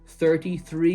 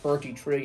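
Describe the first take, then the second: First: The words begin with a soft 'th' sound. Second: The words begin with a hard 't' sound. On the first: "See the way I try to pronounce the T H's there?" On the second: "not thirty-three"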